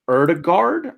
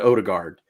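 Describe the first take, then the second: First: The name begins with an 'er'-like vowel. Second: The name begins with a plain 'oh' vowel.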